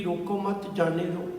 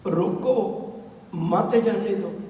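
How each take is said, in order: First: "ਰੋਕੋ ਮਤ" kept together as one unit, then "ਜਾਣੇ ਦੋ"; phrased as "don't stop". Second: "ਰੋਕੋ" alone, a clear break, then slow "ਮਤ ਜਾਣੇ ਦੋ"; pause after "ਰੋਕੋ". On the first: Preacher shows listeners how phrasing changes meaning, "ਰੋਕੋ ਮਤ" said as one group. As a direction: join "ਮਤ" onto "ਰੋਕੋ", no break after "ਰੋਕੋ". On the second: Preacher shows same words changing meaning, with a break after "ਰੋਕੋ". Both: Shown as a demonstration. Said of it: "ਇਹਦਾ ਸਿਰਫ ਉਚਾਰਨ ਕਰਨ ਦੇ ਨਾਲ ਹੀ ਕਿੰਨੇ ਅਰਥ ਬਦਲ ਜਾਣੇ".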